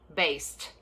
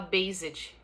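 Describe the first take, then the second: First: The ending is said with a t sound. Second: The ending is said with a d-like sound. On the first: The speaker calls it right. "o ed aqui, ele vira o som de T" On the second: The speaker calls it wrong. "a gente tende a falar também, por conta da nossa referência fonética"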